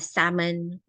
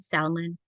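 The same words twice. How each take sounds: First: The L in the word is silent. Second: The L in the word is pronounced.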